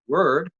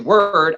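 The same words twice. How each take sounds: First: The word is pushed out the side of the mouth. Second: The word is said in a plain, normal voice. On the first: "I just push it out the side of my mouth a little bit" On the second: "I don't say word"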